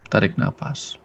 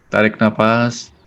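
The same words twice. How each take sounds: First: Trailing off quietly; softer breath cue. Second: Slow breath cue. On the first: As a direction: repeat "tarik nafas" softer, almost fading. ("tarik nafas" lebih pelan dan lirih) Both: Shown as a demonstration.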